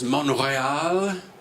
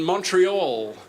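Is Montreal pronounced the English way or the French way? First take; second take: French; English. First: It is pronounced the local French way. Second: It is pronounced the English way.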